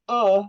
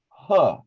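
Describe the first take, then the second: First: It starts with a glottal catch, no h. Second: It starts with a breathy h sound. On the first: The speaker calls it right. "The Hamza makes the uh sound" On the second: The speaker calls it wrong. "I hear you say huh"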